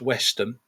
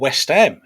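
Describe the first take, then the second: First: It is said the way local people say it. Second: It is said like the football club's name. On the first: This is how people in the area say it. "but to locally it's known as Westham" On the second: This is how outsiders who know football say it. "if you're a football fan. We, we might pronounce it like that"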